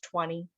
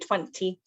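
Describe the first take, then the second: First: The t after the n is dropped. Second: The t after the n is clearly pronounced. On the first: This is ordinary everyday speech. "normally we just say it's twenty" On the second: The speaker is pronouncing words very carefully. "if you're trying to be like really, um, like pronounce your words really well"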